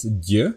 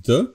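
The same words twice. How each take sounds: First: D said soft and palatal like d in dew; soft palatal d, the right version. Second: D said hard and plain, tongue not raised; plain hard d, the wrong version. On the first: Teacher contrasting Slovak d sounds, soft palatal d. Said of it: "it's d". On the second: Teacher contrasting Slovak d sounds, hard plain d. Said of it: "it's not d". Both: Shown as a demonstration.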